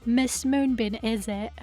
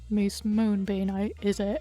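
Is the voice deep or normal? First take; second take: normal; deep. First: It is said in a normal speaking voice. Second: It is said in a put-on deep voice. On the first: The speaker calls it wrong. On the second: The speaker calls it right.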